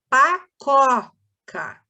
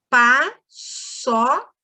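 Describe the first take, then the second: First: The middle consonant is a K sound. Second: The middle consonant is an S sound. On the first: The speaker calls it wrong. "só o C vai ficar có" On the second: The speaker calls it right. "quando você quer fazer o som do S"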